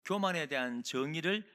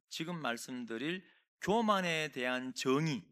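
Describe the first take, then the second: First: 교만에 repeated with a rising tune; rising, insistent repeat of 교만에; repeated emphasis. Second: 교만에 drawn out slowly and weighted; slow, emphatic 교만에 대한 정의; stress on 교만에. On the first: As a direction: say 교만에 again, lifting at the end. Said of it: "꼭 기억하셔야 돼요". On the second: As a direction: lean on 교만에 so it sticks. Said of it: "딱 두 가지를 기억하셔야". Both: Shown as a demonstration.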